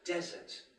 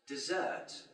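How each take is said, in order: First: The stress is on the first syllable. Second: The stress is on the second syllable. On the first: It names a dry place. "is a noun meaning a dry climate" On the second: It means to leave or abandon. "is a verb meaning to leave or abandon"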